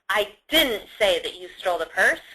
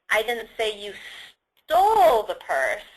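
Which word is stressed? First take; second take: didn't; stole. First: The stress is on "didn't". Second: The stress is on "stole".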